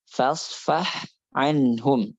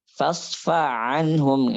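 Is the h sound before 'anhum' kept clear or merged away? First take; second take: clear; merged. First: The h sound is kept clear before the ain. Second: The h sound merges into the following ain. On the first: The speaker calls it right. "tapi fasfah anhum gitu" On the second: The speaker calls it wrong. "Jangan dibaca fasfa anhum gitu"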